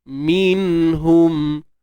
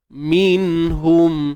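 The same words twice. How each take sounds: The two takes are said the same way.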